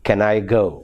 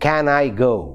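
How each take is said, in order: First: The word 'can' is reduced with a weak vowel. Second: The word 'can' has its full, strong vowel. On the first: The speaker calls it right. "Actually, the pronunciation is" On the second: The speaker calls it wrong. "strong articulation of weak function class words"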